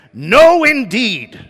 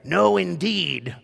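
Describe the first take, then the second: First: Loud, high, drawn-out outburst; emphatic refusal. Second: Slow, measured repeat of an objection; firm refusal. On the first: Elizabeth refuses the baby name, emphatic high outburst. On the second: Elizabeth refuses the name, slow firm restraint. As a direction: draw out each word without shouting. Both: Retold or imitated. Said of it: "and it's emphatic".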